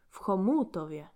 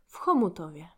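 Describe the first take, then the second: First: The stress is on the second syllable. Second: The stress is on the first syllable.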